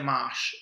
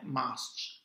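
First: The word ends in a single sh sound. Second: The word ends in s followed by ch. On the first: The speaker calls it wrong. "non è mash" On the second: The speaker calls it right. "ma è masch"

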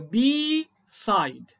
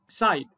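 First: The first vowel is long and open. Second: The first vowel is short and clipped. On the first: The speaker calls it right. "هتبقى البي الاي دي اوبن" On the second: The speaker calls it wrong. "الاي دي مش هتبقى طويله"

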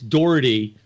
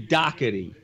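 First: The name is said the general American way. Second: The name is said the Philadelphia way. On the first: "everywhere else in the country it's Doherty" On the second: "in Philly they say Doherty"

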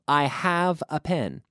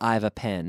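First: The verb 'have' is said as a full word. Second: The verb 'have' is contracted onto 'I'. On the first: The speaker calls it right. "when it's a main verb, we don't contract" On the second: The speaker calls it wrong. "We don't say"

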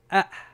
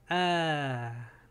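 First: The vowel is very short and quick. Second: The vowel is held long and stretched out. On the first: It is read as the hamza. "nomás A. Rápido" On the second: It is read as the letter alif. "mira cómo lo extiendo"

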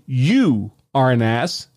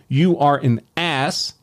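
First: The stress is on the word you. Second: The stress is on the word ass.

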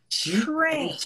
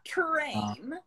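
First: The word begins with a ch-like sound. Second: The word begins with a separate plain t. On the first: The speaker calls it right. "it changes to a CHR pronunciation" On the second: The speaker calls it wrong. "So not"

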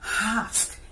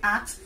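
First: The word starts with a breathy h sound. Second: The word ends with a ks sound. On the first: "H-A-S-K, that is the breathe into the word" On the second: "another word you can hear is ax, A-X-E. They say ax"

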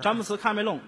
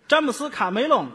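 First: The name is said with a London accent. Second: The name is said with a Henan accent. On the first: "还听着还有伦敦音的有点" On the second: "这都带口音……河南人嘛"

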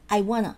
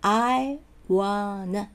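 First: It is said quickly, with sounds run together. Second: It is said slowly, each sound articulated clearly. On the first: "早く言うとI wanna なっちゃう" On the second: "厳密に言えばI wanna"

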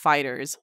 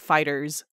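First: The final Z sound is plain and unstressed. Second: The final Z sound is strongly emphasized. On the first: The speaker calls it right. "It is just FighterZ, like the regular way of saying FighterZ" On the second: The speaker calls it wrong. "you don't emphasize the Z like FighterZ"

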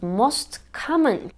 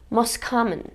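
First: The t at the end of most is pronounced. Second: The t at the end of most is dropped. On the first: "duymayı beklediğimiz" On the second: "şeklinde duyulur. T yutuluyor"

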